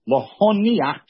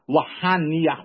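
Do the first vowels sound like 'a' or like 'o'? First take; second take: o; a. First: The first vowels sound like 'o'. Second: The first vowels sound like 'a'. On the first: It means to put on. The speaker calls it right. "you have to say it with a comment" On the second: It means to abandon. The speaker calls it wrong. "not lahaniach with a patach"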